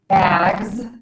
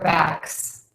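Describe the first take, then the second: First: The word ends with a buzzing z sound. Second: The word ends with a hissing s sound. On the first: The speaker calls it right. "we should end that with a Z sound" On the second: The speaker calls it wrong. "what I hear people say is S"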